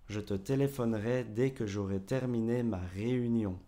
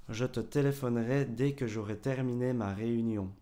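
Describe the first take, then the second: The two takes are said the same way.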